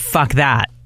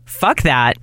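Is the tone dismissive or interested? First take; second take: dismissive; interested. First: The tone sounds dismissive and rejecting. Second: The tone sounds interested and approving. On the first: The speaker rejects it. "means something different than" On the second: The speaker wants it. "That's what the first one meant. In my opinion, because of the intonation"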